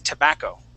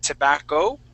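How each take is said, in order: First: The stress does not fall on the last syllable. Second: The stress falls on the last syllable. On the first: The speaker calls it right. "The word is tobacco" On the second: The speaker calls it wrong. "you had said tobacco, pronouncing or giving the accent on the O at the end"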